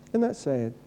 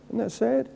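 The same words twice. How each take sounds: The two takes are said the same way.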